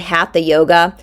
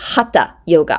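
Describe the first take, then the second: First: The middle consonant is an English th sound. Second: The middle consonant is a plain t sound. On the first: The speaker calls it wrong. "people in the United States like to say hatha yoga" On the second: The speaker calls it right. "the T H doesn't make the th sound in Sanskrit"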